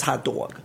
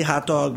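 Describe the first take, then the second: First: New York "dog", rounded to "dawg"; wife's New York accent. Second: Said in the usual way. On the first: Retold or imitated. Husband mimicking wife's "hot dog", New York accent. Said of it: "My wife says hot dog". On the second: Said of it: "I say hot dog".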